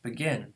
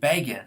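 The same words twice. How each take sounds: First: The stress is on the second syllable. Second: The stress is on the first syllable. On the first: It is the ordinary verb. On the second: It is a person's surname.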